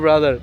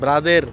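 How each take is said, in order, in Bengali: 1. এটি স্ট্যান্ডার্ড ইংরেজি উচ্চারণে বলা হয়েছে। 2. এটি ফিলিপিনো ধাঁচের ইংরেজি উচ্চারণে বলা হয়েছে। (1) "সুন্দর মতো বললি তো আর ব্রাদার" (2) "ব্রাদারের কি বলে জানেন? ব্রাদের"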